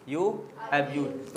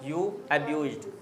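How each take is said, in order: First: Slow, drawn-out repeat; slow model repeat; slow dictation. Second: Said in the usual way. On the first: Shown as a demonstration. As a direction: say it again word by word for the class. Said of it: "teacher repeats slowly". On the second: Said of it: "teacher gives answer".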